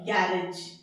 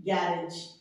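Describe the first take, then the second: No difference in how they are said.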